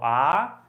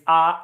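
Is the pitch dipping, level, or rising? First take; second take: rising; level. First: The pitch rises like a question. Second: The pitch stays flat and level. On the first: "I call it a rising tone. ... question intonation tone" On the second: "The first tone, it's ah, ... I call it robotic"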